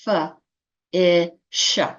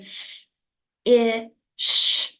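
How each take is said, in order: First: Each sound is said with an extra vowel added. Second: Each sound is said crisply with no added vowel. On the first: The speaker calls it wrong. "but not f, I, sh. That word would be fa-isha" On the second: The speaker calls it right. "we use the crispest uh, pronunciation. So we say f, I, sh"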